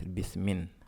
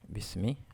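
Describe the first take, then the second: First: The word ends with an added n sound. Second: The word ends on a vowel, no n. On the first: The noun is not light. "Normalement, ça devait être bismin" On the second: The noun is light. "vous voyez le I sur le mime"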